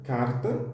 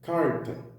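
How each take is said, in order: First: The R is said as a tap. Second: The R is said as a retroflex. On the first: "que é o caso do T E P" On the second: "Que é o caso do R retroflexo"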